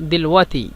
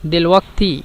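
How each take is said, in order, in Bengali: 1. শেষ 'ti'-এর আগে কোনো k শব্দ শোনা যায় না। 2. শেষ 'ti'-এর আগে একটি k শব্দ শোনা যায়। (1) "কিন্তু দিলওয়াতি" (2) "দিলওয়াক্তি কিন্তু"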